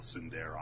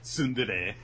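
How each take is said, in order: First: The word ends on an R sound. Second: The word ends on a vowel sound. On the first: The speaker calls it wrong. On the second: The speaker calls it right.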